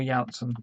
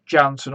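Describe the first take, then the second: First: Janssen opened with a Y sound, like YAN-sən; Y pronunciation. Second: Janssen opened with an English J, like JAN-sən; J pronunciation. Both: Shown as a demonstration. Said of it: "Not sure if it's Janssen or Janssen".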